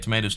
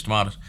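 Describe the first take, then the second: First: Tomatoes, middle syllable rhyming with may; tomatoes as to-MAY-toes. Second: Tomatoes, middle syllable rhyming with spa; tomatoes as to-MAH-toes. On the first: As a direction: say tomatoes with a long ay. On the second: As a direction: say tomatoes with a broad ah. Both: Shown as a demonstration. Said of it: "however you wanna say it".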